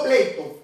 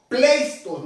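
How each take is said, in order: First: Pleito with no S before the T; pleito, going straight from the vowels to T; pronounced without S. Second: Pleisto with a clear S before the T; pronounced with S. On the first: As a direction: say pleito as the mistaken form, S left out. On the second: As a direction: sound out pleisto, keeping the S. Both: Shown as a demonstration. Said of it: "no pleito".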